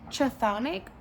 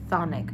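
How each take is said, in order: First: The word starts with a k sound. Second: The word starts with a th sound. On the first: "is it chthonic" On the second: "is the C H silent and it's just thonic"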